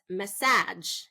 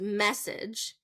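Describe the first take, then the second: First: The stress is on the second syllable. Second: The stress is on the first syllable. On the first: "If I say second syllable stress" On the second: "first syllable stress is message"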